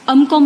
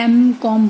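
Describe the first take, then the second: First: अमकॉम said with a short "uh" start, am-kom; wrong pronunciation. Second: एमकॉम said with a clear "em" start, em-kom; correct pronunciation. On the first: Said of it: "अमकॉम नहीं बोलते ना". (अमकॉम को "अम" से शुरू करके गलत उच्चारण) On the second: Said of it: "एमकॉम बोलते हैं". (एमकॉम को "एम" से शुरू करके सही उच्चारण) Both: Shown as a demonstration.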